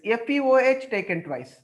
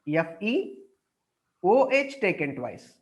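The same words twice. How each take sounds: First: It runs on without a pause before 'taken'. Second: A short pause comes before 'taken twice'. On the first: The speaker calls it wrong. "it seems to be like this" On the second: The speaker calls it right. "You have to give small gap"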